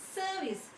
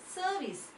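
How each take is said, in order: First: The R sound is silent. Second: The same.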